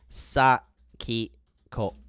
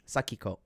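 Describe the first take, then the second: First: SAKIKO very slowly, split Sa, ki, ko; syllable by syllable. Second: Said in the usual way. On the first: Shown as a demonstration. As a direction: spell out Sakiko by sound, pausing between syllables. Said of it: "Her name is". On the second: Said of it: "That's her name".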